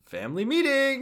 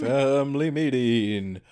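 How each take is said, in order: First: High sing-out summons; calling out. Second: Slow, stretched-out summons; drawn-out call. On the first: Haruka summoning the orphans, high calling voice. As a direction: call the whole house in, pitched way up. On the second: Co-host echoing the family meeting call, drawn out. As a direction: stretch each syllable like a town crier. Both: Acted.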